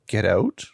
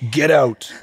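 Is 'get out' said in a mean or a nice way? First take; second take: nice; mean. First: It is said in a gentle, friendly voice. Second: It is said in a mean, deep, gruff voice. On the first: The speaker is asking someone to leave politely. "Nice way" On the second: The speaker is ordering someone away harshly. "this mean masculine voice"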